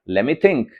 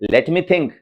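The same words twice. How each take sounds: First: The t in 'let' is silent. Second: The t in 'let' is clearly pronounced. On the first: The speaker calls it right. "इसमें टी को silent कर देना है" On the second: The speaker calls it wrong. "फ्लो टूट जाएगा।"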